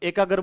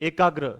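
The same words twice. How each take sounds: First: The g is full, with a vowel after it. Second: The g is half, joined straight to r. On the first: The speaker calls it wrong. "हम एकाग्र बोल देते हैं" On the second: The speaker calls it right. "एकाग्र में घ आधा है"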